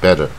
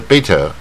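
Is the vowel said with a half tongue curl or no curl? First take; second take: half curl; no curl. First: The vowel is said with a half tongue curl. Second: The vowel is said with no tongue curl. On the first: The speaker calls it right. "它是卷一半Better" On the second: The speaker calls it wrong. "也不是不卷舌Better"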